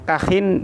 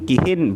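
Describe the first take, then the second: First: The first vowel is a. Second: The first vowel is i.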